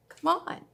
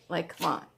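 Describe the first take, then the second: First: "Come on" jumps high, eager and pleading; excited. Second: Said in the usual way. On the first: Real, not acted. Stitcher insisting on a Star Wars project, excited. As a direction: throw it up high like you can't resist. Repeated much higher in excitement.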